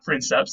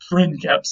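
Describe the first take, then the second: First: The c is pronounced as a soft s sound. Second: The c is pronounced as a hard k sound. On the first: The speaker calls it wrong. "and not princeps" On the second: The speaker calls it right. "C's are always hard, like a K sound"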